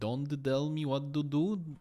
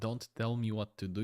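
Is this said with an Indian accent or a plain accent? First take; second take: Indian; plain. First: The t sounds are said like d sounds. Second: The t sounds are said as plain t sounds. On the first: "if you pronounce T like a D" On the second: "instead of"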